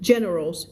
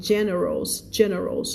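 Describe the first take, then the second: First: Generals with the final s sounded clearly; plural generals. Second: Generals said twice, slowly, with the final s sounded; slow teaching repeat of generals; plural generals. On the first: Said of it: "ไม่ general นะ". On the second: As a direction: stress the closing s of generals. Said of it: "คำนี้อ่านว่า generals". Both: Shown as a demonstration.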